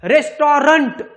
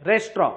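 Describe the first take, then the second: First: The word ends with a clear 'nt' sound. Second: The word ends without any final 'nt' sound. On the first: The speaker calls it wrong. "रेस्टॉरंट असं नाही" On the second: The speaker calls it right.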